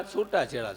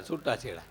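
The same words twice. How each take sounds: First: છૂટા છેડા said at speaking level as the punch; punchline divorce. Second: છૂટા છેડા repeated much lower and softer; soft echo. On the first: Telling the crowd about love marriages, punchline. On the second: Repeating the punchline to the crowd, softly. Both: Shown as a demonstration. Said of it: "જોઈને લાવ્યા, છૂટા છેડા".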